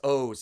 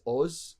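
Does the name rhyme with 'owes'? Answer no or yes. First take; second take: yes; no. First: The name rhymes with the word 'owes'. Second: The name does not rhyme with 'owes'. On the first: This is how the family says it here. The speaker calls it wrong. "It's like somebody owes you money" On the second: This is how it is said in Israel. The speaker calls it right. "in Israel. If you ask somebody their name, it's Oz"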